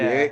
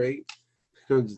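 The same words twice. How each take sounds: First: It is said in a more aggressive Latino style. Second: It is said in a Canadian style. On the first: "Latinos say it differently... it's like more aggressive" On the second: "Is that your Canadian impression? Yeah"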